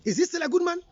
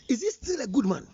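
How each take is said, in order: First: "he" lifted high, the question ending on a rise; rising challenge. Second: Said in the usual way. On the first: Real, not acted. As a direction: throw the question up, daring the listener. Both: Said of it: "Are you still saying".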